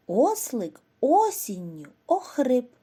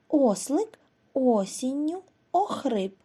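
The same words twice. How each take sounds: First: Breathy, voiceless telling of the sick donkey; whispered line about the donkey who lost his voice; hoarse whisper. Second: Said in the usual way. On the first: Acted.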